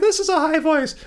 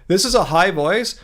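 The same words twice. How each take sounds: First: It is said at a raised, high pitch. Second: It is said at a low, normal speaking pitch.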